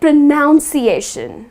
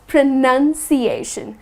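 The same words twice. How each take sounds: First: The second syllable sounds like 'noun'. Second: The second syllable sounds like 'nun'. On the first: The speaker calls it wrong. "people tend to say it pronunciation" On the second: The speaker calls it right. "Just the way it is spelled"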